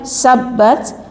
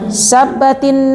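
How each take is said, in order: First: The word ends on a bare consonant t. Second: The word ends with a helper i vowel. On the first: This is the original form with sukun. "aslinya sabbat" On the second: It is read joined to the next word. "karena kita baca sambung, dapat bantuan harokat kasroh"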